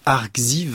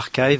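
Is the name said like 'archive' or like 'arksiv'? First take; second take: arksiv; archive. First: The name is read with an x sound. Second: The name sounds like the word archive. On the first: "en français, on dirait Arxiv" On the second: "je vais quand même prononcer Archive, c'est beaucoup plus classe"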